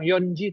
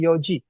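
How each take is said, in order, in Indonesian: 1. Diucapkan dengan bunyi n sebelum ji. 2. Diucapkan tanpa bunyi n sebelum ji.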